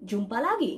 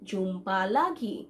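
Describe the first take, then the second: First: Said in the usual way. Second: "jumpa lagi" drawn out slowly, syllable by syllable. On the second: Shown as a demonstration. Teacher repeats it slowly for learners. ("jumpa lagi" ধীরে, ভেঙে ভেঙে উচ্চারণ)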